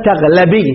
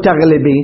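First: تغلبي pronounced "taghlabi", clear a after l; fatha on the lam. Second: تغلبي pronounced "taghlibi", short i after l; kasra on the lam. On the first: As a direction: stress an open a on the lam of تغلبي. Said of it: "يعني تفتح الل-، اللام". (تغلبي بلام مفتوحة) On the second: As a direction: give the lam in تغلبي an i vowel. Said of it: "ما نقول". (تغلبي بلام مكسورة) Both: Shown as a demonstration.

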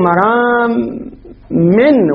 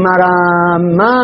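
First: "مرام من" drawn out slowly as maraa-min; tanween ending. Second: "مراما" drawn out slowly to a long final aa; open aa ending. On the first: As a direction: say "مرام" slowly, closing on an "in" sound. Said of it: "فاني خطأها". («مرام» بتنوين الكسر، ببطء) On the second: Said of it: "هذا مرامة فاني خطأها". («مراما» بألف ممدودة في آخرها) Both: Shown as a demonstration.

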